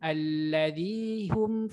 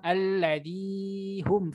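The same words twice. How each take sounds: First: The vowel is held for only two beats. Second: The vowel is held longer than two beats. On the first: The speaker calls it right. "itu dua harkat" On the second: The speaker calls it wrong.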